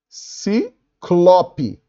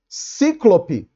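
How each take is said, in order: First: The stress is on the second syllable. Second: The stress is on the first syllable. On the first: The speaker calls it right. "A palavra é ciclope, sem acento também, porque é uma paroxítona terminada em E" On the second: The speaker calls it wrong. "Cíclope não existe"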